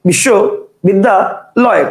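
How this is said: The word is broken into three separate chunks. "কেউ উচ্চারণ করবে বিশ্ব বিদ্যা লয়, কটা হলো? তিনটা।"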